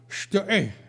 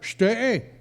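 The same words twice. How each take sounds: First: The word has a guttural German sound. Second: The word lacks the guttural German sound. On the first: The speaker calls it right. "He would pronounce it Steg" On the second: The speaker calls it wrong. "I could never quite get it right"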